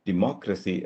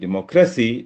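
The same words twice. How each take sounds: First: The stress is on the second syllable. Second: The stress is on the third syllable. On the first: The speaker calls it right. "Anti penultimate സിലബിളിലാണ് ഇത് വരുന്നത്" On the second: The speaker calls it wrong. "അതിന്റെ stress penultimate സിലബിളിലായിരുന്നെങ്കിൽ"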